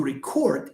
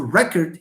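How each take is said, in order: First: "record" with weight on the last syllable, re-CORD; stress on second syllable. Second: "record" as REC-erd, weight up front; stress on first syllable. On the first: Teacher models the verb for students, stress on the end of "record". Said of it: "as a verb, it falls here". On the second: Teacher shows the wrong form for the verb, "record" stressed on the start. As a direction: say "record" like the noun, strong "rec", weak ending. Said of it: "It's not he wants to record". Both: Shown as a demonstration.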